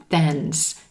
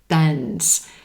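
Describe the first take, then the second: No difference in how they are said.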